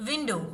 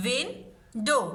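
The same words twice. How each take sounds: First: Said in the usual way. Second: Win-dow stretched out in two beats; split into syllables. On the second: Shown as a demonstration. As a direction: say window slowly, part by part. (window को दो हिस्सों में खींच कर बोलें) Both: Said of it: "इसको break किया जा सकता है".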